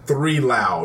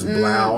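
First: The name begins with the word three. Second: The name begins with a B sound. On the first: The speaker calls it wrong. "People are saying three Lau" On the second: The speaker calls it right. "It is Blau, like a B"

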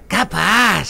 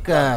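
First: It sounds like a polite you're-welcome reply. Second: It sounds like a flat denial, pitch pulled down.

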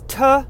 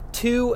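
First: The vowel is cut to a short weak uh. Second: The t is crisp and the vowel is full. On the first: The speaker calls it wrong. "two becomes tuh" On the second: The speaker calls it right. "I just said them perfect right there"

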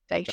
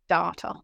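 First: Data is said with a British pronunciation. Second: Data is said with an Australian pronunciation. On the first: This is how British listeners expect it said. "instead of data" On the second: This is how the speaker naturally says it. "some of the things that I say, like data"

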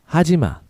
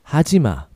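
No difference in how they are said.

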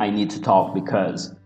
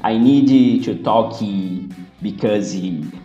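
First: The words end cleanly on their final consonants. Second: Extra vowel sounds are added after final consonants. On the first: The speaker calls it right. "que seria a pronúncia correta" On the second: The speaker calls it wrong. "dá pra perceber que é brasileiro, porque vocês falam"

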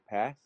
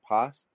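First: It is said with an American accent. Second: It is said with a New Zealand accent.

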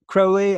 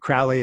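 First: The name has a British pronunciation. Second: The name has an American pronunciation. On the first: "as the British usually say it" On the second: "as we Americans say it"

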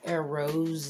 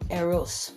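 First: The word ends in a soft Z sound. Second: The word ends in a sharp S sound. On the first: The speaker calls it wrong. "It's not supposed to be a soft sounding or Z sound" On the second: The speaker calls it right. "super punctuated with a very sharp S sound"

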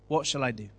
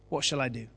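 No difference in how they are said.

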